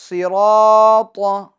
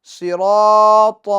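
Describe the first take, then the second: Both takes have the same delivery.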